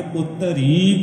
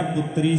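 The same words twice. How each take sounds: First: ਪੁੱਤਰੀ as put-ta-ree with a long held ee; ਪੁੱਤਰੀ in three syllables, a short a before the long ree; pronunciation demo. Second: ਪੁੱਤਰੀ as two joined syllables, put-ree; ਪੁੱਤਰੀ with no vowel before r and no held ending; misreading demo. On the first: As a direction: draw out the last syllable of ਪੁੱਤਰੀ slowly. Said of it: "ਪੜਾਂਗੇ". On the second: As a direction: say ਪੁੱਤਰੀ short, with t and r run together. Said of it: "ਏਦਾਂ ਨਹੀਂ ਆਪਾਂ ਪੜਾਂਗੇ". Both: Shown as a demonstration.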